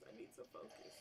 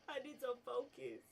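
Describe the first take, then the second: First: Breathy giggled whisper; stifled laughter. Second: Giggly self-reminder. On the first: Gamer giggles while urging himself to focus. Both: Real, not acted.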